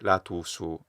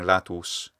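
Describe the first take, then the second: First: A small extra vowel follows the final consonant. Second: The word ends cleanly on the final consonant. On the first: The speaker calls it wrong. "They add a little schwa vowel" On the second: The speaker calls it right. "they're not used to saying latus"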